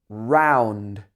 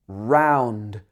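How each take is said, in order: No difference in how they are said.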